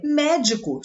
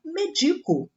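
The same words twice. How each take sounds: First: "médico" stressed on the first syllable, MÉ-di-co; noun stress. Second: "medico" stressed on "di", me-DI-co; verb stress. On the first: Teacher reading the noun: "médico" stressed on "mé". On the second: Teacher reading the verb: "medico" stressed on "di". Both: Shown as a demonstration. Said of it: "Se eu retirar o acento".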